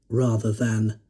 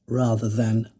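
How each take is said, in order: Both takes have the same delivery.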